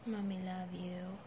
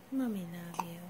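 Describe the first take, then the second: First: Said in the usual way. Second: Hushed tender whisper. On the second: Real, not acted. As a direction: lower whispered "Mommy love you". Mother settling baby to sleep.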